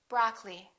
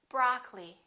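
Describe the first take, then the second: The two takes are said the same way.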